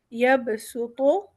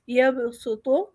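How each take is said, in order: First: یبسطو drawn out very slowly, the seen held clear; very slow recitation. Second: یبسطو recited with a clear seen sound; first recitation. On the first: Teacher slowly repeating the word for students. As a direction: stretch every sound of یبسطو slowly. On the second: Teacher reading the example word to the class, recited. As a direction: say یبسطو with seen, not saad. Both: Shown as a demonstration. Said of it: "سین پڑھیں گے".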